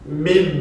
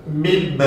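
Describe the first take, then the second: First: The sound is muffled with the nose pinched shut. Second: The sound is muffled with the nose pinched shut.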